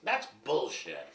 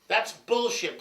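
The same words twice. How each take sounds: First: Said in the usual way. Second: Higher, louder second take; a louder, higher "That's bullshit."; loud repeat. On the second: Shown as a demonstration.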